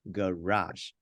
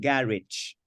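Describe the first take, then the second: First: The word ends with a French-style soft ending. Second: The word ends with an English-style 'idge' sound. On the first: The speaker calls it right. "this word is derived from French" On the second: The speaker calls it wrong. "It is not ga and then you put ich at the end"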